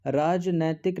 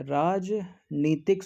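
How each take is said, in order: First: "राजनैतिक" slowly, with a drawn-out ai in नै; wrong form, slow. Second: "राजनीतिक" slowly, with a long ee in नी; correct form, slow. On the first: Teacher slowly showing students the wrong "राजनैतिक". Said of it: "राजनैतिक नहीं होता है". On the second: Teacher slowly giving students the correct "राजनीतिक". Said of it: "राजनीतिक शुद्ध होता है". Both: Shown as a demonstration.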